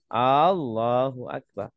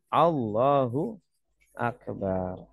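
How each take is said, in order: First: The opening vowel of Allahu is drawn out long. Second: All the vowels are kept short. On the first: It turns into a question asking whether God is great. The speaker calls it wrong. "Kalau panjang ya. Jadi jangan dipanjangkan" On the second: God is the greatest. The speaker calls it right. "Bacanya pendek"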